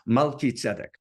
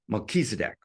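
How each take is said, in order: First: The name has a Hebrew-style pronunciation. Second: The name has an English-style pronunciation. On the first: The speaker calls it right. "but Melchizedek" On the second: The speaker calls it wrong. "they pronounce it in some weird way"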